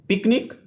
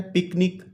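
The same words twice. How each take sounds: First: Said in the usual way. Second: पिकनिक in two beats, पिक-निक; syllable by syllable. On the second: Shown as a demonstration. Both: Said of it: "two syllable word है".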